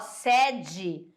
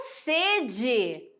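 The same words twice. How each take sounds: First: The first vowel is pronounced open. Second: The first vowel is pronounced closed. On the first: It means a headquarters or place. "Esse E, a pronúncia é aberta" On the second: It means wanting to drink. "a mesma escrita, mas a pronúncia é diferente"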